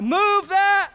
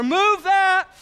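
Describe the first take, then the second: First: High, loud crowd chant; crowd shout. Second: Higher, louder group shout; crowd shout all together. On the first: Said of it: "what do they shout". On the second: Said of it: "Let's get it all together". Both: Retold or imitated.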